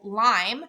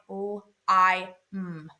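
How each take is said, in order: First: Said in the usual way. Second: "L, I, M" as phonics sounds, one at a time; sounded out. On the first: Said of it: "the second syllable". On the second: Shown as a demonstration. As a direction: break lime into "L, I, M", humming the last. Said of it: "you hear the I".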